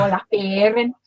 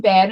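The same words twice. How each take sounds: First: "Baring" in broad Scouse; demonstrated Scouse "Baring"; Scouse accent. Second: Said in the usual way. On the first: Shown as a demonstration. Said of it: "I'd go". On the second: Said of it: "if I was saying Baring".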